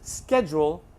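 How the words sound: It is said in an American accent. "Los Angeles"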